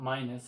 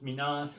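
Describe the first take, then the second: First: The second syllable sounds like 'nus'. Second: The second syllable sounds like 'nas'. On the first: The speaker calls it wrong. "it's not Minus" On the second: The speaker calls it right. "it's Minas"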